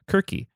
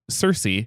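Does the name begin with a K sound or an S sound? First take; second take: K sound; S sound. First: The name begins with a hard K sound. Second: The name begins with a soft S sound. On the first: This is the original Greek form of the name. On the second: This is the familiar mainstream form of the name.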